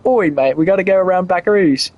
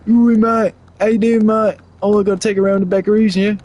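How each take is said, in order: First: Lightly put-on British accent, almost his own voice; a half-hearted British accent, tossed off. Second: Hammed-up British accent. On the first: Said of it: "I don't think I've ever heard a British person go". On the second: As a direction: go full cartoon British bloke. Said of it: "in my head in a British accent".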